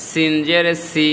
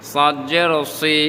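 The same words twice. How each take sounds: First: 'সি' with a fine hissed s; thin S. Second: 'সাদ' and 'সি' with a heavy s; rounded-mouth heavy S. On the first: Teacher compares similar letters, 'সি' with a thin s. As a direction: keep 'সিন' and 'সি' thin. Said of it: "চিকন করে". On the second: Teacher compares similar letters, 'সি' heavy and rounded. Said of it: "মুখ গোল করে". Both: Shown as a demonstration.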